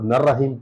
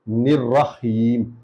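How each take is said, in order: First: The first vowel is 'a', the 'ra' short. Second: The first vowel is 'i', the 'ra' short. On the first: The speaker calls it wrong. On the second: The speaker calls it right.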